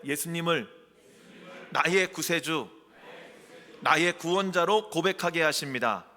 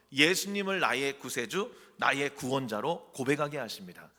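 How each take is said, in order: First: Loud, projected phrases with pauses between; leading a repeat-after-me. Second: Said in the usual way. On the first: Shown as a demonstration. Preacher asking the congregation to repeat the confession, loud call-out. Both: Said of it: "한번 따라해 보실래요?".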